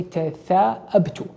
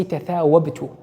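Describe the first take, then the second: First: Tatha'abtu slow and careful, no w, an open glottal break ta-tha-'ab-tu; correct form. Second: Tatha'wabtu said with a w sound in the middle, ta-tha-wab-tu; wrong form. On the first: Teacher slowly giving students the right form, tatha'abtu with a hamza. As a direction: drag out tatha'abtu, stop the throat before ab. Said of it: "You say tatha'abtu". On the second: Teacher showing students the wrong form, w sound in tatha'wabtu. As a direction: give tatha'wabtu with a clear w before the a. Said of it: "You don't say tatha'wabtu". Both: Shown as a demonstration.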